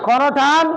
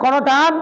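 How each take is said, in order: Both takes have the same delivery.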